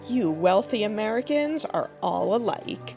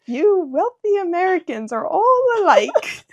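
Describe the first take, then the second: First: It is said in the speaker's normal accent. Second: It is said in an attempted British accent. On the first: "I'm just gonna do it normally" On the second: "I can't do a British accent"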